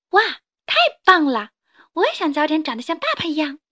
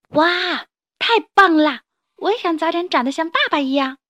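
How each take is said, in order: First: Put-on high, louder, fast little-kid wow; a kid amazed at dad; excited child. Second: Put-on high, much louder kid's wow; amazed at dad's tail swing; excited child. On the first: (小孩子兴奋地赞叹) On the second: (小孩子激动地惊叹) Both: 小恐龙赞叹.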